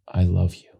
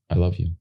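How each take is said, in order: First: Hammed-up emotional actor; overplayed I love you; overacted big version. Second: Quiet, plain and meant; just say it to her eyes; understated sincere line; simple and sincere. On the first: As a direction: try too hard to show the feeling. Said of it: "I'm gonna do this to camera". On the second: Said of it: "I just went, I was like this". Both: Shown as a demonstration.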